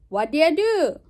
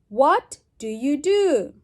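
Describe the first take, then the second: First: 'Do you' is run together quickly into a shortened form. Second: Each word of 'do you' is said clearly and separately. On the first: "Reduce. ... See, it's very fast"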